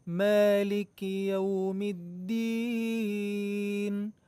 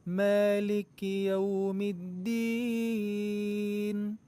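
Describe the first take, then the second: The two takes are said the same way.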